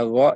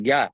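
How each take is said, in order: First: "gha" thick, like "gho" from the throat; thick ghain. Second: "ga" with a hard g and open a; thin g. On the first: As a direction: say "gha" heavy with a rounded vowel. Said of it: "Huruf gha termasuk huruf yang tebal". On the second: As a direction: say "ga" light and thin. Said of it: "dan bukan ga". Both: Shown as a demonstration.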